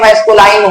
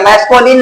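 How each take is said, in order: First: The last syllable has an 'eye' sound. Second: The last syllable has a short 'i' sound. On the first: The speaker calls it right. "बल्कि मैस्कुलाइन होता है" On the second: The speaker calls it wrong. "बहुत से लोग इसको मैस्कुलिन gender बोलते हैं। मैस्कुलिन नहीं होता"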